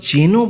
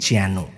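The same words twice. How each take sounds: First: The vowel is a plain e sound. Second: The vowel is an open ae sound. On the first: The speaker calls it wrong. "আমরা যেন বলছি না" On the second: The speaker calls it right. "আমরা বলছি যেন"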